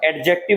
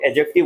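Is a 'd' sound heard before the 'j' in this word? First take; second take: yes; no. First: A 'd' sound is heard before the 'j'. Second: No 'd' sound is heard before the 'j'. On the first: The speaker calls it wrong. "एडजेक्टिव नहीं होता है पहली बात वो" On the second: The speaker calls it right. "डी को silent करो"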